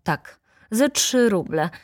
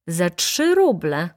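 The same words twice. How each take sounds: First: "za trzy ruble" stated, pitch falling on "ruble"; firm confirmation. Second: Slow "Za trzy ruble?" with pitch leaping on "ruble"; incredulous question. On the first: Acted. Seller confirms the price firmly. (stanowcze, oznajmujące „za trzy ruble”) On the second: A narrator's reading. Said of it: "spytała baronowa". (niedowierzające, przeciągnięte „Za trzy ruble?”)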